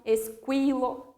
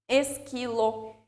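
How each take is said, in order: First: Slow esquilo as es-KWI-lo; deliberate kw in esquilo; wrongly sounded U. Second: Slow esquilo with a plain k; careful k sound in esquilo, no w; silent U. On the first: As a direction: say "esquilo" with a w after the k. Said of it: "não é essa pronúncia". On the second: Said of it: "formam também um único som". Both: Shown as a demonstration.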